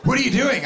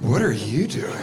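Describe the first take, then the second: First: High-pitched startled "What are you doing?"; startled question. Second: Low "What are you doing?" with YOU swooping up; question turned back. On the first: Startled people questioning the comic, alarmed high pitch. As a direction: ask it in higher-pitched alarm, ARE lifted. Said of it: "then when they're like". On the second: Comic answering the startled couple, question turned back low. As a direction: throw the question back, lower, leaning on YOU. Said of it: "I just say". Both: Retold or imitated.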